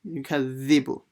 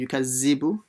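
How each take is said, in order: First: The middle consonant is a voiced th sound. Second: The middle consonant is a buzzing z sound. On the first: The speaker calls it right. "make sure you read the dhal properly" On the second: The speaker calls it wrong. "Don't say yukazibu"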